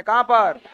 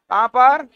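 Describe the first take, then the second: First: कहां पर with a falling end on पर; falling question. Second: कहां पर with पर rising, said a bit louder; rising question. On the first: Teacher prompting the class, falling tone. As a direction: ask कहां पर flatly, dropping on पर. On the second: Teacher pressing students for the place, rising tone. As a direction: push कहां पर up at the end, demanding an answer. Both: Shown as a demonstration. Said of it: "teacher repeats the question".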